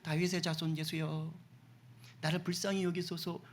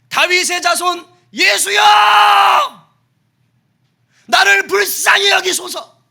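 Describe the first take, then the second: First: It is said calmly, at normal volume. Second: It is screamed loudly, almost a shriek.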